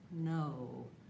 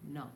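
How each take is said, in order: First: The vowel glides from O toward U. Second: The vowel is one pure, unchanging O sound. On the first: "We slide from the O vowel to the U vowel" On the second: "use a nice, pure O vowel on no. It sounds like this"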